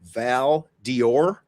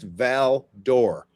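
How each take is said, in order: First: The D is said as a separate "dee" sound. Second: The D blends into the next syllable as "duh". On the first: The speaker calls it wrong. "Most people ... would call that Val Dior" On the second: The speaker calls it right. "you don't say D, you say duh"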